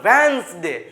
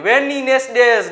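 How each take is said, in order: First: The word is said as two syllables, wens-day. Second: The word is said with an extra middle syllable. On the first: The speaker calls it right. "આ રીતે ઉચ્ચાર કરવાનો" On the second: The speaker calls it wrong. "ને મન પડે એવું બોલતા હોય"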